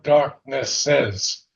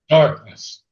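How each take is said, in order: First: The word is said with three syllables. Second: The word is said with two syllables. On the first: The speaker calls it wrong. "not darkness says three beats" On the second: The speaker calls it right. "it's one beat"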